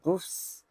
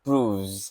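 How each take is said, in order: First: The final sound is a hissing s. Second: The final sound is a buzzing z. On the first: The speaker calls it wrong. "bukan proofs" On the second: The speaker calls it right. "Jadi S-nya dibaca Z"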